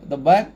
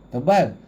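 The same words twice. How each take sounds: No difference in how they are said.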